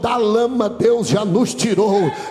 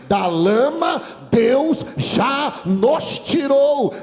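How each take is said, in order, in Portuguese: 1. Ela é falada em ritmo normal. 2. Ela é falada muito devagar.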